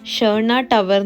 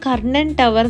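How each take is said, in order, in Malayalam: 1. ഈ പേര് മൃദുവായ sh ശബ്ദത്തിലാണ് തുടങ്ങുന്നത്. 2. ഈ പേര് കടുപ്പമുള്ള k ശബ്ദത്തിലാണ് തുടങ്ങുന്നത്. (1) "ശരിക്കും സ്വീഡിഷിൽ പ്രൊനൗൺസ് ചെയ്യുന്നത് ഷേർണ ടവർ എന്നാണ്" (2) "ഇത് വായിക്കുമ്പോൾ കർണൻ ടവർ എന്നാണെങ്കിലും"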